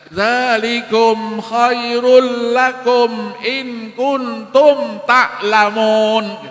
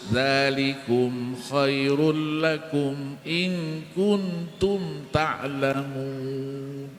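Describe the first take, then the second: First: The u vowels are open, sounding like o. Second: The u vowels are fully rounded, like u. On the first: The speaker calls it wrong. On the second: The speaker calls it right. "Harus halus. Mulutnya muncung"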